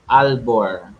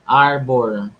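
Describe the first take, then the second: First: The middle consonant is an L sound. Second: The middle consonant is an R sound. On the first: The speaker calls it wrong. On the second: The speaker calls it right. "Arbor. Hindi Albor"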